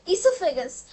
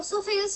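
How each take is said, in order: First: The word begins with an 'ee' sound. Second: The word begins with an 'o' sound. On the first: The speaker calls it right. "वो जो है वो silent होता है, वो है ईसोफेगस" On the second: The speaker calls it wrong. "वो ओसोफेगस नहीं होता है उसका"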